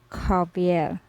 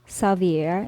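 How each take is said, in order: First: The first sound is a throaty gargled K. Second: The first sound is not a throaty gargle. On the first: The speaker calls it right. "Instead, we pronounce this as" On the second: The speaker calls it wrong. "we don't pronounce X here as"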